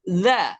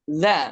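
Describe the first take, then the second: First: The consonant is a voiced th sound. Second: The same.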